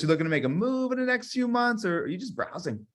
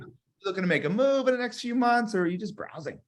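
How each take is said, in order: First: It sounds curious, with move drawn out. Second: It is said fairly flat, with little curiosity.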